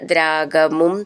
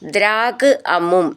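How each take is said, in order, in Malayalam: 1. ഈ രണ്ട് വാക്കുകളും ചേർത്ത് ഒന്നാക്കിയാണ് പറയുന്നത്. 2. ഈ രണ്ട് വാക്കുകളും വേറെ വേറെയായിട്ടാണ് പറയുന്നത്.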